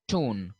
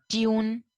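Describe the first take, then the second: First: Tone as "toon", no y glide; plain oo in tone, said "toon"; American pronunciation. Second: Tune as "tyoon", drawn on a higher note; y glide before the oo in tune; British pronunciation. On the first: Teacher contrasting how they say it, American "toon" for tone. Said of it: "while they say". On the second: Teacher giving a similar British example, tune as "tyoon". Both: Shown as a demonstration.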